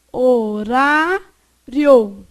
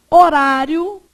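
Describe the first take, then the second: First: "horário" drawn out as ho, rá, rio; slow teacher's division of "horário"; syllable by syllable. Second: Said in the usual way. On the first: Shown as a demonstration. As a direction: stretch "horário" very slowly, pausing before a joined rio. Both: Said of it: "o final fica juntinho".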